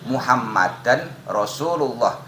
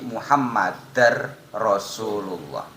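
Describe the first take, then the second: First: The n sound is clearly kept before Rasulullah. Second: The n sound merges into the following r. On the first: "Maka tulisannya wa asyhadu anna Muhammadan Rasulullah" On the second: "karena tanwin bertemu dengan ro, maka dia menjadi Muhammadar Rasulullah"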